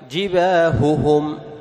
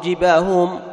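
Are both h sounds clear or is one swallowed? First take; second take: clear; swallowed. First: Both h sounds and their vowels are fully clear. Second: One h sound and its vowel are partly swallowed. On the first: The speaker calls it right. "لابد أن تظهر الهاءين وتتم حركاتهما" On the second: The speaker calls it wrong. "ما تقول جباههم أو جباههم تأكل شيء من حركة الهاء"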